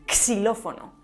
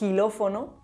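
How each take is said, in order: First: The word begins with a ks sound. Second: The word begins with a rough jota sound. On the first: "además de como x o s" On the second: "como j"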